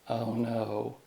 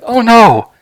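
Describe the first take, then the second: First: It is said in a sarcastic tone. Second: It is said in a scared tone. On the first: "it's going to be sarcastic" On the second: "maybe it could be scared"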